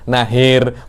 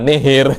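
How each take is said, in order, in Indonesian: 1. Vokal pertama adalah 'a' terbuka yang biasa. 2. Vokal pertama juga condong ke 'i'. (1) "yang benar nahir" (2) "bukan nihir"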